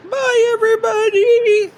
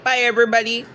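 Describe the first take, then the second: First: Much higher cheery bye; high sing-song goodbye. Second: Said in the usual way. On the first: Real, not acted.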